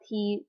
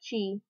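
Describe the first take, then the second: First: The syllable begins with a plain t sound. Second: The syllable begins with a ch sound. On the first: The speaker calls it wrong. "So it's not ta, ti, tu, te, to" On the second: The speaker calls it right. "It's ta, chi, su, te, to"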